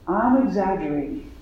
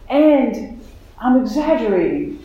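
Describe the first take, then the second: First: Said in the usual way. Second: Surprising inner voice. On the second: Retold or imitated. A new voice cuts in while she cries, lightly voiced. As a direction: let an unexpected voice pop out, lightly voiced. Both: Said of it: "this voice that said".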